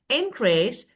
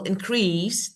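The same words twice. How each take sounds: First: The stress is on the first syllable. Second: The stress is on the second syllable. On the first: It is used as a noun. "that is noun. ... in is important" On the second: It is used as a verb. "that is verb"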